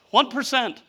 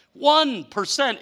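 First: Said in the usual way. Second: "One" hit hard, slowly; slow emphatic "One percent"; slow stressed "One percent". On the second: Shown as a demonstration. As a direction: drag out "One percent" for weight.

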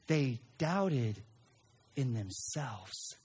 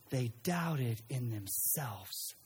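First: Said in the usual way. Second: "They doubted in themselves" said slowly and quietly; slow, soft emphasis. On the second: Shown as a demonstration. Preacher repeating the point to the congregation, slow and hushed.

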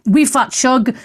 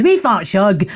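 First: Said in the usual way. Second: Playful Scots accent. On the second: Shown as a demonstration. Host trying a listener's name, Scots accent. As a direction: say WEE FAT SHUG as a Scot would. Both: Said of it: "I want to see it in a Scots accent".

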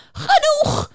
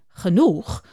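First: Very high, piercing shout; beaver screaming. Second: A touch of bewildered asking, lower; puzzled question. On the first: The beaver screams at the singing unicorn, a shrill high yell. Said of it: "begint de bever te schreeuwen". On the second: Juniper echoes the beaver, mildly puzzled. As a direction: ask it back, mildly baffled. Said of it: "vraagt Juniper verwonderd". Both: Acted.

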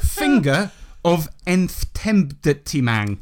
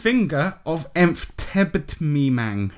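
First: Very drawn-out, careful reading of the odd name; slow announcement. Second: Very slow, careful repeat of the odd name. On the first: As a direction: spell it out slowly. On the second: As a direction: repeat it slowly for them. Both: Shown as a demonstration.

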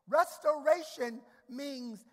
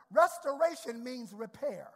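First: Restoration drawn out slowly, every syllable weighted; slow down and lean on Restoration for note-taking; slow stressed restoration. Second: Said in the usual way. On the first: Shown as a demonstration. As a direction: Restoration spoken slowly and heavily. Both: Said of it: "put in your note".

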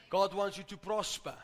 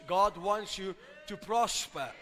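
First: Said in the usual way. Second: God wants you to prosper, slower and weightier; slow emphatic repeat. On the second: Shown as a demonstration. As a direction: lean on every word, slow it down. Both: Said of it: "I said this".

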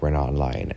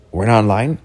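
First: Said in the usual way. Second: "We're not in line?" louder, rising high at the end; questioning echo. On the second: Retold or imitated. Mom querying her child, "We're not in line?" as a rising question.

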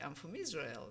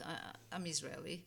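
First: Proud declaration, pitch swelling on Israel. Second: Reluctant, understated admission with a false start; hesitant. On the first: Immigrant recalling answering where she's from, proud. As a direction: state your origin with understated pride. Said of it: "I would say with pride". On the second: Immigrant unsure she wants to announce her origin, hesitant. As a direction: stumble on "I", then own up modestly. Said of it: "now it's like". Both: Retold or imitated.

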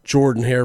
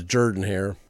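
First: Said in the usual way. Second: Jordan said as "Jurdan", first vowel like "her"; local pronunciation. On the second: Shown as a demonstration. Host contrasting with Michael Jordan, Jordan said as "Jurdan". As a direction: rhyme the start of Jordan with "her". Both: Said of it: "always hard for me to pronounce".

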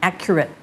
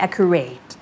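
First: "accurate" ending in a short, weak "-ret"; short final vowel. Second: "accurate" wrongly ending like "rate"; long "-ate" ending. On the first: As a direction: keep the end of "accurate" short, like "AK-yuh-rit". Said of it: "ถ้าเกิดมันเป็น adjective เสียงมันจะสั้น". (accurate ออกเสียงท้ายสั้น) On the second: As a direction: stretch the end of "accurate" into "AK-yuh-RATE". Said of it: "ไม่ใช่ accurate". (accurate ลากเสียงท้ายเป็น เรท) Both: Shown as a demonstration.

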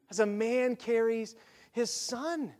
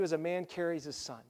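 First: Slow, soft, with a pause before "his son"; savouring the verse. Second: Said in the usual way. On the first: Acted. Preacher dwelling on the beautiful picture, slow savouring repeat. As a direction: linger on "As a man carries", then set "his son" apart.

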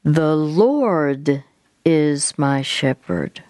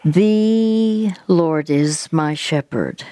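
First: "Lord" lifted and drawn out, then a short pause; stress on LORD. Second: Slow recitation, "The" held long; stress on THE. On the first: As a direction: swell on "Lord", then slow to the end. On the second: Counselor leads friend in the verse to repeat, stress on THE. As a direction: stretch "The" out before the rest. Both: Shown as a demonstration. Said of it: "emphasizing a different word each time".

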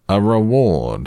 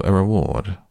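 First: REWARD raised high and louder. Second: Said in the usual way. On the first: A narrator's reading. Owl insisting to Pooh on a reward, very loudly. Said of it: "said the Owl very loudly".

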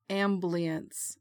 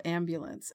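First: Amblience, syllable u dropped: AM-blience. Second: Said in the usual way. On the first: Shown as a demonstration. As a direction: say amblience, squeezing ambulance to two beats. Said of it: "My dad always said". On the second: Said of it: "instead of".

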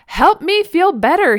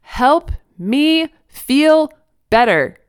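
First: High, loud, drawn-out plea; mock toddler shout. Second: Loud, high, word by word; slow, spelled-out shout. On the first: Toddler telling mom what was wrong, high mock shout. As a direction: imitate a small child yelling for comfort. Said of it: "he shouted at me". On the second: Toddler to his dense mother, very slow and loud. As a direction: imitate a child spelling it out for someone dense. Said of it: "spoke more slowly so his dense mother could understand". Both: A narrator's reading.

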